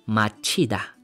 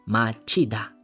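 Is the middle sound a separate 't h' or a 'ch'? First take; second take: ch; ch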